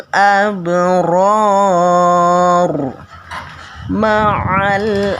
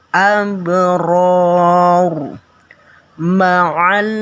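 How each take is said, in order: The two takes are said the same way.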